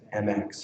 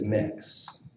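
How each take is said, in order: First: It is spoken as two separate letters. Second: It is spoken as one short word. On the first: "currently we've been pronouncing it as M X" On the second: "the preferred pronunciation"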